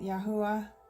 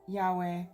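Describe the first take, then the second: First: The name is said as Yahuwah. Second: The name is said as Yahweh. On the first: "but I actually like to pronounce it Yahuwah" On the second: "This is written Yahweh"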